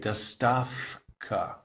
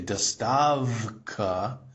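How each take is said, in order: First: The middle consonant is a voiceless 'f' sound. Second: The middle consonant is a voiced 'v' sound. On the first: The speaker calls it right. "they say dostavka" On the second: The speaker calls it wrong. "they don't say dostavka"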